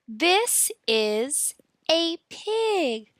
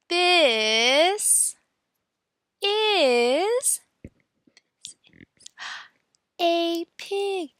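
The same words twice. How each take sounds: First: The phrase is said at a normal speed. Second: The phrase is said slowly and drawn out.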